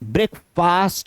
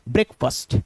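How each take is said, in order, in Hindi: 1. दूसरा syllable fast जैसा सुनाई देता है। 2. दूसरे सिलेबल में एक छोटा, हल्का स्वर है। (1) "फास्ट नहीं होगा" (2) "बल्कि क्या होगा? फर्स्ट"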